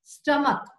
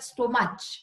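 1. यात 'uh' स्वर आहे आणि शेवट 'k' ने होतो. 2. यात 'o' स्वर आहे आणि शेवट 'ch' ने होतो. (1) "ह्याला म्हणतात स्टमक" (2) "रॉंग प्रोनाउन्सिएशन करतात, म्हणतात स्टोमच"

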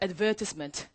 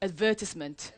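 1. 영국식 억양으로 발음했어요. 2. 영국식 억양으로 발음했어요.

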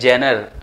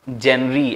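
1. शब्द 'er' ध्वनि पर खत्म होता है। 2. शब्द 'ee' ध्वनि पर खत्म होता है। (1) "बहुत से लोग इसे प्रोनाउंस ही रॉन्ग करते हैं" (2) "बहुत से लोग इसे प्रोनाउंस ही रॉन्ग करते हैं"

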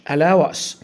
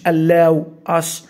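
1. تُوصل الكلمتان ببعضهما بسلاسة. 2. تُقال الكلمتان منفصلتين. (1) "في عنا connected speech" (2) "مش allow us"

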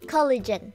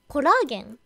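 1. 英語の KOL-uh-jen のように、短い母音で言います。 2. 日本語の ko-ra-ge-n のように、真ん中の母音を長くして言います。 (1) "正解はコリジェン" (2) "コラーゲン、コラーゲンを英語で言うと何でしょう？"

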